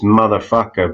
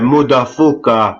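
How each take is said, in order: First: It is said in the speaker's usual accent. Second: It is said in an imitated, put-on accent. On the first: "The way I would say it is" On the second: "it's something like uh"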